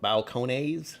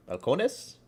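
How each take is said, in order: First: Balcones ending in "nayz"; Balcones, last syllable rhyming with "days"; long final vowel. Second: Balcones ending in a short "nuss"; questioning Balcones, ending like "ness"; reduced final vowel. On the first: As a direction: say Balcones with a drawn-out "ay" before the z. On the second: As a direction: say Balcones with a weak last syllable and s. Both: Shown as a demonstration. Tries out two pronunciations.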